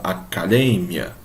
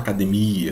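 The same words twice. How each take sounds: First: The stress falls on the syllable 'de'. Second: The stress falls on the syllable 'mi'. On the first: This is the Spanish pronunciation. "ele fala academia. Então, a sílaba tônica é o D" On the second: This is the Portuguese pronunciation. "ele não fala academia"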